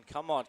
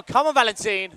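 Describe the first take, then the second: First: Said in the usual way. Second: Loud, high cheer; cheering shout. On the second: Real, not acted. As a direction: urge him on loudly. Cheering rider on.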